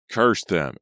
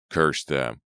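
First: Louder, higher furious curse; scream. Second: Scream. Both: Acted. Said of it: "Ezra screamed".

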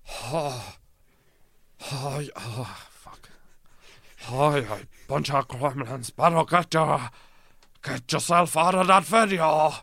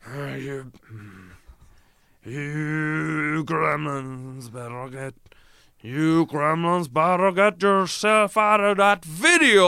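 First: A wobbly, false-start John Wayne, high and loud by the end; fumbling first try at a cowboy voice; John Wayne impression. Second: Slow, drawn-out cowboy voice building to a loud, high finish; John Wayne impression. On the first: Doing John Wayne for the lads, first shaky take. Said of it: "John Wayne". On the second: Second take of John Wayne threatening the gremlins. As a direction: drag it out like a Western hero then let rip. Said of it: "doing an impression of John Wayne".

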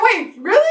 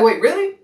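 First: Much higher mock disbelief; incredulous echo. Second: Higher-pitched quoted question; father's questioning reaction. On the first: Daughter echoes her father's question, high incredulous retort. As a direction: throw the question back, high-pitched. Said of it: "I said". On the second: Retold or imitated. Father asks her about the pregnancy, lightly imitated surprise. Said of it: "He's like".

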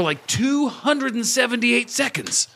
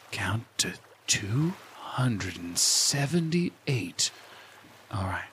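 First: High, drawn-out emphasis on the number; high, stretched-out excited voice; excited gloating. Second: Very slow, soft, low counting instruction; hushed and unhurried, lulling the listener; guided meditation. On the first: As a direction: marvel at how long it is, pitched way up. Gloats off the recording, dropping meditation voice. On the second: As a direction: stretch it out softly like a meditation guide. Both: Acted.

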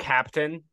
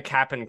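First: "Captain" with its T sounded; full pronunciation. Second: "Cap'n" with no T; contracted pronunciation. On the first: Explaining the street name, "Captain" pronounced in full with the T. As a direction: say "Captain" in full, both syllables clear. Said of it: "it's because it's not Captain". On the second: Explaining the street name, "Cap'n" contracted without the T. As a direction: run "Cap'n" straight from P into N. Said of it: "It's C A P apostrophe N". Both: Shown as a demonstration.

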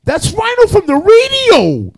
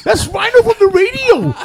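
First: 목소리를 높여 길게 외치듯, 훨씬 높고 크게; 총 든 남자를 말리려 다급하게 외치는; high shout. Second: 한 번 더 높고 크게 외치는 목소리; 총격을 막으려고 소리치는 친구; high shout. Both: Retold or imitated. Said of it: "the guy goes".

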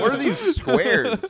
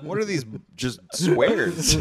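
First: Slow, high and laughing; laughing mock outrage. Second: Slow, drawn-out scorn; mock disgust. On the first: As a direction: laugh through a mock complaint. Mocking plain packaging. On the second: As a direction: sneer at the boring boxes. Repeat of the mock complaint.

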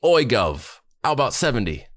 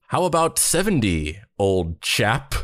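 First: Higher-pitched, mock London accent. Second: Mock old-chap British accent. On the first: London manager haggling with the duo, put-on London accent. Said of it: "He has, like, a London accent". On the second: Manager countering the duo's demand, mock British accent. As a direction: put on a hammed-up British gent. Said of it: "not even the type of British accent".

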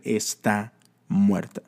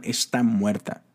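First: Slow, grave "Está muerta"; ominous voices. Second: Said in the usual way. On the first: Retold or imitated. Voices tell Jairus his daughter died, slow and grave. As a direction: let the voices drag out the death news. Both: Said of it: "voces literalmente diciéndole".

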